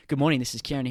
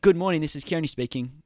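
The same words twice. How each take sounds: First: Bright formal phone voice; phone greeting. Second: Louder, higher, quicker formal phone voice; phone greeting. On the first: Answering the phone at work, crisp formal greeting. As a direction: answer the call like a receptionist. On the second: Answering a business call, brisk polished phone greeting. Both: Shown as a demonstration. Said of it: "that vocal tone".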